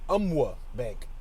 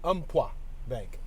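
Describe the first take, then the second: First: The P and Q sounds are left out. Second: The Q sound in Umpqua is left out. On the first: "Or maybe the P and the Q silent" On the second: "Or maybe the Q silent"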